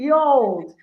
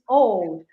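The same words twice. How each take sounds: First: It is said with an Old English pronunciation. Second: It is said with a modern English pronunciation. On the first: "in old English" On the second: "In modern English, it's old"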